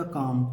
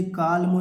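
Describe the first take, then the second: First: "काम" with the L left silent, just kaam. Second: "कालमो" with the L sounded, kaal-mo; wrong with the L. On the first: Teacher gives pupils the right reading, silent L in "काम". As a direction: say "काम" with no L sound. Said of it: "केवल सीएएम का उच्चारण निकालना है". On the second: Teacher shows pupils the wrong reading, L sounded in "कालमो". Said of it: "इसे कालमो नहीं पढ़ेंगे". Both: Shown as a demonstration.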